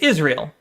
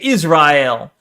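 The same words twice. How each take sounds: First: Israel is said with a general American pronunciation. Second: Israel is said with a Jewish-style pronunciation. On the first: "If you're American, for example, you say Israel"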